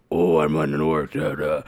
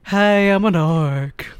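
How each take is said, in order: First: Low, gruff orc growl, imitated; big gruff orc voice. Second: Higher, louder, slow and oddly polite; polite orc voice. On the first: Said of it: "have this big, gruff, like, orc voice". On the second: Retold or imitated. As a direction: greet them slowly, like a harmless orc. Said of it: "This is my orc voice".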